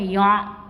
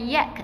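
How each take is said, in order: First: The vowel ends with a plain glottal stop. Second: The vowel ends with a k sound. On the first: "bukan ya'" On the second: "bukan yak eh"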